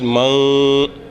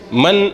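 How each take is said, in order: First: The n sound is partly hidden and muted. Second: The n sound is pronounced clearly. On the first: The speaker calls it right. "on va cacher un peu le son du noun" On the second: The speaker calls it wrong. "au lieu de lire man"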